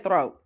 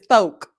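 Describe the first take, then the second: First: The word ends with a t sound, with r. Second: The word ends with a k sound, no r. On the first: This is the usual way to say it. "she don't say throat" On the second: This is how an older relative says it. "My grandmother says thoke"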